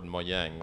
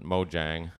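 First: It is pronounced the Swedish way. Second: It is pronounced the anglicized way. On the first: The speaker calls it right. "the Swedish word mojang" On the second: The speaker calls it wrong. "a lot of people mispronounce it mojang"

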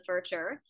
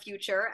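First: The word is pronounced in an odd, distorted way. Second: The word is pronounced in the ordinary way. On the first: The speaker calls it wrong. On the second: The speaker calls it right.

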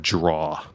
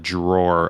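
First: The word ends without an r sound. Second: The word ends with an r sound. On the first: This is how a family member said it. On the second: This is the usual pronunciation.

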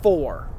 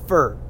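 First: The vowel is a full clear o sound. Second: The vowel is reduced to a weak er sound. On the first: The speaker calls it right. "nailing that O in the middle" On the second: The speaker calls it wrong. "four becomes fur"

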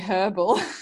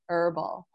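First: It is said in an Australian way, h pronounced. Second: It is said in an American way, h silent.

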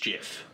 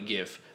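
First: It begins with a soft J sound. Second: It begins with a hard G sound. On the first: The speaker calls it wrong. "But no, he said it's GIF" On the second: The speaker calls it right. "graphic. That's a lower G, so it should be GIF"

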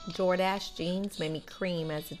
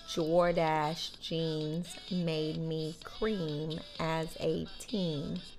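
First: It is said at normal speed. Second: It is said slowly.

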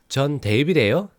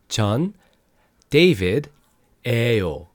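First: The phrase is spoken faster. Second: The phrase is spoken slowly. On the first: "a little faster" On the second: "let's slow that down a little bit"

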